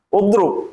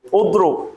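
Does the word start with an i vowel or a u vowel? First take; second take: u vowel; u vowel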